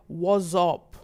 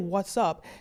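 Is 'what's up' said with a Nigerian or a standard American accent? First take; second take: Nigerian; standard American. First: It is said with a Nigerian accent. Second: It is said with a standard American accent. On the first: "He said, was up" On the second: "He didn't say what's up"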